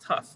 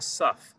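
First: It begins with a t sound, Sephardi style. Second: It begins with an s sound, Ashkenazi style.

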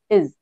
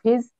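First: The word starts without an H sound. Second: The word starts with an H sound. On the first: "In some dialect, we can drop H sound as well" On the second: "Instead of his"

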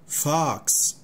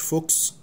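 First: The vowel is open, like ah. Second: The vowel is closed and rounded, like oh. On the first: The speaker calls it right. "فالاو هنا مفتوحة" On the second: The speaker calls it wrong. "مش فوكس"

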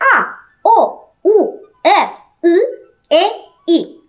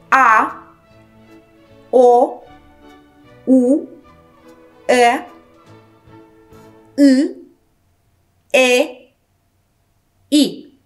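First: The vowels are said at a faster pace. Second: The vowels are said at a slower pace. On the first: "Intensificăm ritmul" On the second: "Încă o dată"

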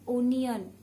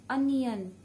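No difference in how they are said.

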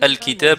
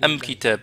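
First: The article is pronounced al. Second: The article is pronounced am. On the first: This is the usual form. "Au lieu de dire « al-kitab »" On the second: This is the dialect form. "on dit « am-kitab »"

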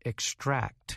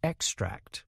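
First: The stress is on the last syllable. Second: The stress is on the first syllable. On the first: It is a verb meaning to take something out. "we emphasize the last part of the word" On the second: It is a noun meaning the substance removed. "the first part is emphasized"

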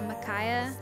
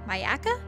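First: The name is said as Makaya. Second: The name is said as Mayaka. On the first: The speaker calls it wrong. "I probably said that wrong" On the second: The speaker calls it right. "Yeah, the Mayaka River"

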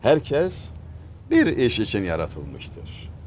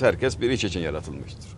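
First: The word 'bir' carries the stress. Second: The word 'bir' is not stressed. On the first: Everyone is made for one single task. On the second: Each person is made for some different task.

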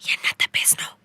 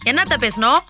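First: It is spoken softly. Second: It is spoken loudly. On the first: The speaker calls it right. "இப்படியே பேசு, இது நல்லது" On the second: The speaker calls it wrong. "சவுண்ட குறை"

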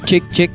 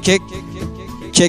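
First: The voice sounds dry with no echo. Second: The voice sounds echoey with reverb added. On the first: "ini suara murni real dari mixernya. Ini tanpa efek ya" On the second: "kita tambahin efek"

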